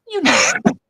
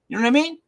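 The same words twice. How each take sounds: First: It is said as a statement. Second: It is said as a question.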